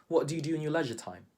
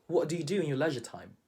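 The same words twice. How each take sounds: No difference in how they are said.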